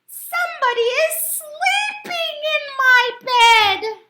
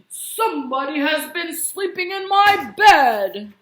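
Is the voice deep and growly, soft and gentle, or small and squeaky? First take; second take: small squeaky; deep growly. First: It is said in a small, squeaky voice. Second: It is said in a deep, growly voice.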